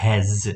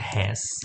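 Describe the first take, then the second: First: The word ends with a z sound. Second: The word ends with an s sound. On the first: The speaker calls it right. "એને ઝ તરીકે વાંચવાનું છે" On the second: The speaker calls it wrong. "આપણે આને વાંચીશું આમ તો હેસ"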